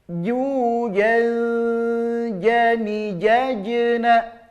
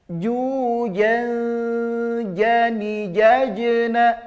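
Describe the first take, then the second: Both takes have the same delivery.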